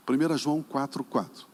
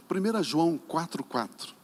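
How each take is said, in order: Both takes have the same delivery.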